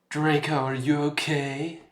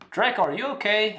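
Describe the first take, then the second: First: It is said in a dark, put-on gothic voice. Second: It is said in a plain, ordinary voice. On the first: The speaker calls it right. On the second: The speaker calls it wrong.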